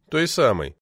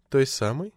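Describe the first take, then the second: First: САМОЙ falling as a firm answer; matter-of-fact reply, falling tune on САМОЙ; confirming echo. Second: САМОЙ lifted in a rising question; probing question, upward tune on САМОЙ; questioning echo. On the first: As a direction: confirm ТОЙ САМОЙ with a downward close. Husband confirms the wife's question. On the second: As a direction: query ТОЙ САМОЙ with the voice rising at the end. Wife questions, husband confirms. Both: A narrator's reading.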